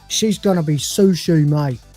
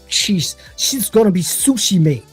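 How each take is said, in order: First: It is said in the speaker's plain accent. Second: It is said in a put-on ethnic accent.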